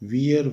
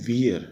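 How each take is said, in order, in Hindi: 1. यह दो हिस्सों में बोला जाता है, 'wee-er' जैसे। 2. यह दो हिस्सों में बोला जाता है, 'wee-er' जैसे।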